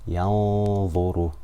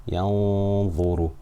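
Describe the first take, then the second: Both takes have the same delivery.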